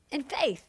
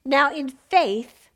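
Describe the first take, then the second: First: "In faith" dropped to near hush; soft repeat. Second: Slow, weighty "Now, in faith"; slow emphasis. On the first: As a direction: let "In faith" fall away softly. Preacher repeats phrase softly. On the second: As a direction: lean on "in faith" slowly. Preacher stressing faith. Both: Real, not acted.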